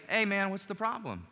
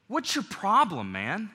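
First: Easy, open, caring question; friendly tone. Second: Sharp, confrontational challenge; hostile tone. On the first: Preacher showing the right way to open a conflict, friendly. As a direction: ask it like a friend who wants to help. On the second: Preacher showing the wrong way to open a conflict, hostile. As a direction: spit it out like you want a fight. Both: Shown as a demonstration. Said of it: "big difference in those two tone of voices".

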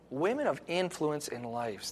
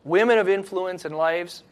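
First: Softer and slower, letting the phrase sink in; soft, slow repeat. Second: Said in the usual way. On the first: Shown as a demonstration. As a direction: repeat it quietly and slowly for them to think about. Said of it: "Think about that".

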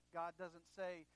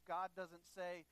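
Both takes have the same delivery.

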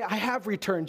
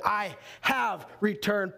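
First: Said in the usual way. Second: Slow, with "have" leaned on; stress on have. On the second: Shown as a demonstration. Driving home past tense to congregation, slow stressed "have". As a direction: stretch out "I have returned", landing on "have". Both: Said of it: "past tense".

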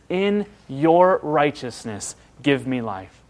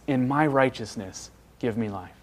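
First: "your" leaned on, slow and drawn out; stress on your. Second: "my" leaned on, softer, fading away at the end; stress on my. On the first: Preacher quoting the psalmist, stressing "your". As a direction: put the weight on "your" in "In your righteousness". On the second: Preacher mocking the self-righteous prayer, stressing "my". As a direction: put the weight on "my" in "In my righteousness". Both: Retold or imitated. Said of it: "I am so glad that he doesn't say".

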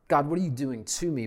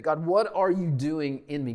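First: Quick, exasperated plea to God; fast frustrated complaint; complaining prayer. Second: In leaned on, a searching open question; stress on IN. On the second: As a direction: ask it as a trusting question, weight on in. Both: Shown as a demonstration.

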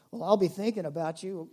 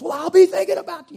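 First: Said in the usual way. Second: Loud, high and fast; loud mock comfort. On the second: Shown as a demonstration. Preacher mocking a loud hollow reply to a migraine sufferer. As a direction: blurt the empty phrase far too loudly. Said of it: "you know, loud".

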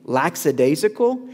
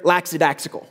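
First: Said in the usual way. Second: LAXIDAXICAL with an x sound in both halves; funny mispronunciation. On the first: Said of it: "He would say they're". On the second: Retold or imitated. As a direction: imitate the pastor's mangled LAXIDAXICAL. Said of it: "funniest way to say that phrase".

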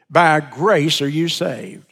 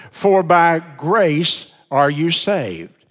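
First: Said in the usual way. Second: "For by grace are you saved" read slowly, every word weighted; slow emphatic quote. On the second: Shown as a demonstration. Preacher quoting the verse to the congregation, slow and emphatic. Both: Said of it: "I emphasize again".

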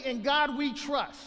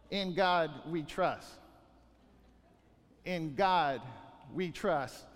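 First: Higher, slowed, sarcastic recital; mocking quote. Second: Slow, low, deliberate creed; solemn motto. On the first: Preacher mocking hearers' empty creed, sarcastic. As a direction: throw their own motto back at them. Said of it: "You say". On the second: Shown as a demonstration. Preacher reciting the nation's motto, slow and low. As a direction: lay down each word like a vow.

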